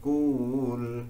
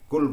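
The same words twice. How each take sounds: First: The vowel is drawn out long. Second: The vowel is short. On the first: The speaker calls it wrong. "ditambah wow" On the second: The speaker calls it right.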